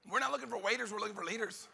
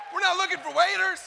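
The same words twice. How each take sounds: First: Hushed. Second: Shouted. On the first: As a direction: say it almost under your breath. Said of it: "hushed take before shouted repeat". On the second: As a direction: blast it out to the crowd. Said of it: "shouted repeat of hushed line". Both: Shown as a demonstration.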